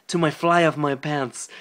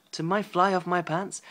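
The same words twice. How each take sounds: First: Said in the usual way. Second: Incredulous reread. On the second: Real, not acted.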